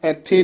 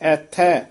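First: The final vowel is a plain 'e' sound. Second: The final vowel is a broad 'ai' sound. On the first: The speaker calls it wrong. "ਐਥੇ ਨਹੀਂ ਕਹਿ ਦੇਣਾ" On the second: The speaker calls it right. "ਐੜੇ ਦੇ ਦਲਾਵਾਂ ਹੈ, ਥੱਚੇ ਦੇ ਦਲਾਵਾਂ ਹਨ"

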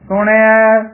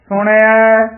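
The two takes are said the same way.

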